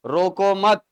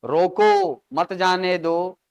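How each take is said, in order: First: रोको मत run together as one phrase; break moved after मत. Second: रोको, then a break before मत जाने दो; pause after रोको. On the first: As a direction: join मत onto रोको, stop after मत. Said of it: "गलत जगह पर आपने ब्रेक लगा दिया". ("रोको मत" एक साथ, मत के बाद विराम) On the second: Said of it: "गलत जगह पर खंडित कर दिया". (रोको के बाद विराम, फिर "मत जाने दो") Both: Shown as a demonstration.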